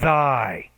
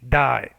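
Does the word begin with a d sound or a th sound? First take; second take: th sound; d sound. First: It begins with a voiced th sound. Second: It begins with a d sound. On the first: The speaker calls it right. "That's why I say thy, not thigh. So th, you can feel the vibration" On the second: The speaker calls it wrong. "if you put it behind the teeth, it sounds like die"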